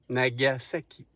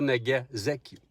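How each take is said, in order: First: The middle consonant is a hissing S sound. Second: The middle consonant is a buzzing Z sound. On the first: The speaker calls it right. "c'est un S. On dit Nagasaki" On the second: The speaker calls it wrong. "pas Nagasaki"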